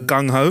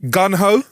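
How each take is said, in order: First: The first word ends with an ng sound. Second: The first word ends with a plain n sound. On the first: The speaker calls it right. "instead of gung ho" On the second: The speaker calls it wrong. "Mispronounced phrases"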